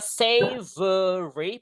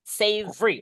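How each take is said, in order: First: The word is said with all its syllables. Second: The word is said quickly with syllables squeezed together. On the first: "Boleh baca savory, boleh" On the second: "lebih bagus teman-teman bacanya savory, langsung free, diringkas gitu"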